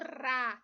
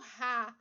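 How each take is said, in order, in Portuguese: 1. O R é um som leve, de tepe. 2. O R é um som forte e áspero. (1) "nós estamos falando Rá" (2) "Aqui nós não estamos falando Rá"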